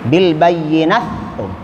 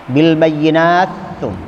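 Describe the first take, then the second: First: The t merges into the following th. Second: The same.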